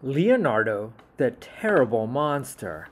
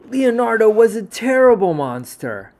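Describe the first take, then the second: First: Said in the usual way. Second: Big, loud and higher, stressing was; loud dramatic read; booming storyteller. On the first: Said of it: "title read twice". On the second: A narrator's reading. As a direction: announce it like a grand tale.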